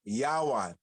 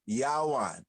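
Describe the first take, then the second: First: The middle consonant is a W sound. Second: The middle consonant is a W sound.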